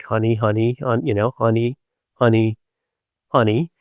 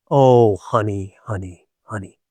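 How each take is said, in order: First: Comforting honey. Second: Soothing honey, fading out. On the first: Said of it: "does the, like". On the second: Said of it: "echoing the comfort softly". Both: Retold or imitated.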